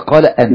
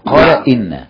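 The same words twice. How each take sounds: First: The hamza after qala takes an 'a' vowel. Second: The hamza after qala takes an 'i' vowel. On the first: The speaker calls it wrong. "وليس" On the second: The speaker calls it right. "دائما همزه ان تكسر بعد القول"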